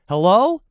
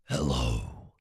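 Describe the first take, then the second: First: It is said in the speaker's normal voice. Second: It is said in a deep, oracle-like voice.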